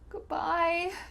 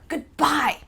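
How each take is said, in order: First: It is said in a sad, sorrowful tone. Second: It is said in an angry, forceful tone. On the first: The speaker may not see the person for a long time. "if we're really sad" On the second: The speaker is upset and leaving abruptly. "when we're feeling angry and we want to slam the door"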